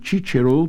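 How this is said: It uses the Italian pronunciation. "became Cicero to the Italian"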